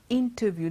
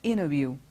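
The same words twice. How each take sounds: First: The t after the n is clearly pronounced. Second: The t after the n is dropped. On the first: "It's not interview" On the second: "they must say interview, it's not even voiced at all"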